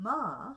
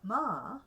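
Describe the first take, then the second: First: The pitch rises and then falls. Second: The same.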